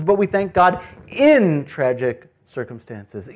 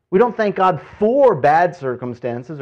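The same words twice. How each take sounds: First: Slow, with "in" drawn out and loud; stress on IN. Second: "for" punched out loudly; stress on FOR. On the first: Preacher urging thanks amid tragedy, stress on "in". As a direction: stretch and punch "in". Contrasts IN with FOR. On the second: Preacher ruling out thanks for hardship, stress on "for". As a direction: lean hard on "for". Contrasts FOR with IN. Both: Shown as a demonstration.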